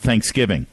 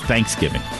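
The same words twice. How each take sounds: First: The stress is on the second syllable. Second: The stress is on the first syllable. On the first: The speaker calls it right. "Everyone in America celebrated Thanksgiving" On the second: The speaker calls it wrong. "Oklahomans put the emphasis on the first syllable"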